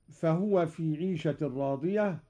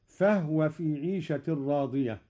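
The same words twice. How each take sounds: First: Quran recitation. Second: فهو with a silent ha; sukun on ha. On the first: Acted. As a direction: recite it with tajweed. Recites verse. (تلاوة مجودة) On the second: Shown as a demonstration. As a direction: say فهو as «فَهْوَ». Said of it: "أسكن الهاء أيضًا قالون". (فهو بإسكان الهاء)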